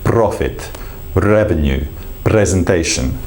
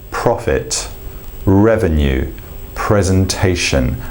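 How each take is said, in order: First: The R is tapped against the mouth roof. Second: The R is soft, with no tongue tap. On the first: "as opposed to" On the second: "So the words I might use with this are"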